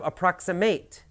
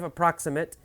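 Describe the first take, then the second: First: The last syllable has a long A sound. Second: The last syllable has a short, reduced vowel. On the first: It means to get close to. "Verb, ... it becomes a long A sound" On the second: It means roughly, not exact.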